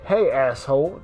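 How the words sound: It sounds hostile, ready to fight.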